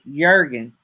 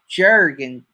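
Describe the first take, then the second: First: The name begins with a Y sound. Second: The name begins with a J sound. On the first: The speaker calls it right. "it's pronounced like it should be spelt with a Y" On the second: The speaker calls it wrong. "it's not pronounced Jurgen Journey"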